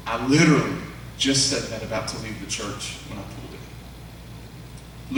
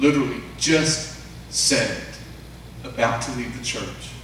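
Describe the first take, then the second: First: Said in the usual way. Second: "Literally... just... said" slowly, a pause after each word; word-by-word emphasis. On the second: Retold or imitated. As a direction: spell out the disbelief, isolating "Literally", "just" and "said". Repeats her words for emphasis.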